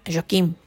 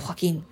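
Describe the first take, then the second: First: Joaquín said as Portuguese "zhwa-KEEM"; Portuguese pronunciation. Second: Said in the usual way. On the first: Shown as a demonstration. Teacher names a Portuguese voice for listeners, Joaquín pronounced the Portuguese way. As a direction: say Joaquín with a soft zh start and m-like ending.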